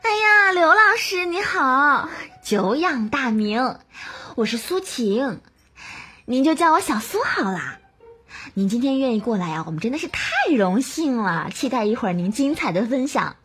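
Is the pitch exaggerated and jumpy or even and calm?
exaggerated. The pitch is high and jumps up and down.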